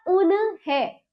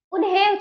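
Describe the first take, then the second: First: उन्हें as u-na-hen; wrong full न. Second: उन्हें as un-hen; correct half न. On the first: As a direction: pull उन्हें apart with a vowel after न. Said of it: "क्या हो जाता?". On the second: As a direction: run न straight into हें in उन्हें. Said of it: "उन्हें चाहिए हमें". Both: Shown as a demonstration.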